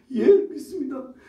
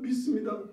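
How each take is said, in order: First: A loud, high, emphatic yes of faith; eager confession. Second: Said in the usual way. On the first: Acted. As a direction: declare it boldly, voice lifted.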